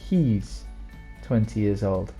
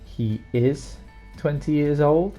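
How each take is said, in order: First: He and is are joined into one short syllable. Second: He and is are said as two full words.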